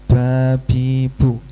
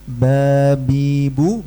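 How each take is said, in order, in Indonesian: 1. Bunyi b dilepas dengan desisan angin. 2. Bunyi b dilepas dengan bersih, tanpa angin tambahan. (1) "bukan babibu" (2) "Harusnya babibu"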